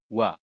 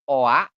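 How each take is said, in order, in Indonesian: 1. Kedua vokal menyatu menjadi satu bunyi meluncur. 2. Kedua vokal diucapkan sebagai bunyi yang terpisah. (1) "tapi langsung wa" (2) "Jadi bukan O A"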